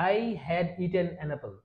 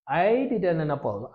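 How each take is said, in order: First: I had eaten an apple said slowly and softly; slow full form. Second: I'd eaten an apple drawn out, stress on I'd; slow contraction demo. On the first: Teacher gives the full form before the contraction. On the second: Teacher models the contracted I'd form. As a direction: stretch I'd slowly, then eaten an apple. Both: Shown as a demonstration. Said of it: "কিন্তু আমরা চাইলে এটা বলতে পারি কি?".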